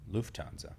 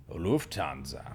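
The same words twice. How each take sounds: First: Said in the usual way. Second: "Lufthansa" drawn out slowly; slow, punched-up "Lufthansa"; exaggerated airline name. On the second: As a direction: stretch "Lufthansa" out with playful emphasis.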